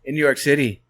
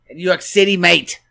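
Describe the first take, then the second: First: Said in the usual way. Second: Loud, higher-pitched put-on Irish accent; mock Irish accent. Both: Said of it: "That's my Irish accent".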